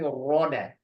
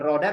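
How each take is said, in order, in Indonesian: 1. Bunyi r-nya tebal, terdengar berat. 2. Bunyi r-nya tipis, seperti bahasa Indonesia biasa. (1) "jadi ditebalkan" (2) "Jadi bukan kayak ro kita, bukan roda"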